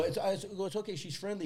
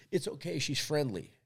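First: Repeated a good deal higher; sing-song reassurance to a stranger; dog walker calling out higher; higher friendly call. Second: Said in the usual way. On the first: Retold or imitated. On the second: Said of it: "and I go".

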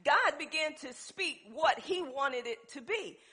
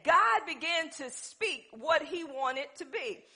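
First: Said in the usual way. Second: "God began to speak" slowed and stressed; slow emphatic repeat. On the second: Shown as a demonstration. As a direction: drive home "God" slowly. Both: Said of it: "Let me say it again".

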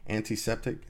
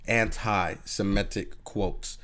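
First: Antiseptic said in place of anti-Semitic, a slip of the tongue; unsure, stumbling Antiseptic; fumbled word. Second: Anti-Semitic said slowly, syllable by syllable; slowly feeling out anti-Semitic; careful pronunciation. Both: Real, not acted. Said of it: "I feel like I said that right".

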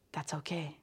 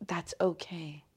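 First: Much softer, gently telling herself it's fine; quiet self-comfort; soft reassurance. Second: Whispered, gently soothing herself; hushed self-comfort whisper; whispered reassurance. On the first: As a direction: let the words sink almost away. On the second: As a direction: breathe the words to yourself. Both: Shown as a demonstration. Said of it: "that's how I can think to myself".

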